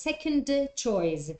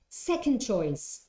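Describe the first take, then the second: First: The d sound at the end of second is pronounced. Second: The d sound at the end of second is dropped. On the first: The speaker calls it wrong. "You don't say second choice. ... It makes you stop" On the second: The speaker calls it right. "the sound that is going to disappear when you say it uh, in one go is the d"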